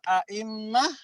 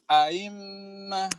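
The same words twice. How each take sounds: First: The second hamza is pronounced fully. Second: The second hamza is softened, not fully pronounced.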